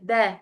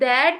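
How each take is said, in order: First: The final t sound is dropped. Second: The final t sound is fully pronounced. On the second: "पूरा दैट नहीं बोलते"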